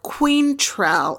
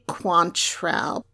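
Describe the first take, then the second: First: The first syllable sounds like the word 'queen'. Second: The first syllable does not sound like 'queen'. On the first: "when you put queen in there" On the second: "it's actually Quantrell"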